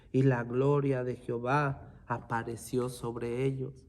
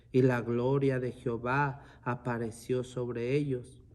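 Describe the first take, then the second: Both takes have the same delivery.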